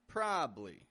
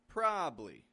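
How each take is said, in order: First: The middle syllable is dropped, giving two syllables. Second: The middle syllable is dropped, giving two syllables.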